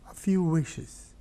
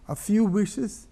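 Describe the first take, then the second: First: Said in the usual way. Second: Few raised high, rising tune; stressed repetition. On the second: Shown as a demonstration. Preacher echoing the dying man's words to stress them. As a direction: lift few as a pointed echo. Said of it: "Remember, when a dying man wishes".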